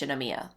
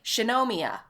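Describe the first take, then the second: First: The syllables are said evenly, without strong stress. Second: One syllable is strongly stressed over the others. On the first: The speaker calls it right. "Shinomiya is just Shinomiya" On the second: The speaker calls it wrong. "they say it like Shinomiya"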